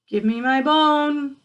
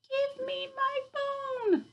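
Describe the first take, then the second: First: It is said louder still, the loudest. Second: It is said in a soft, small voice.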